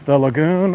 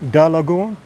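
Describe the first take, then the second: First: The first word is said with a 'th' sound. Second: The first word is said with a 'd' sound.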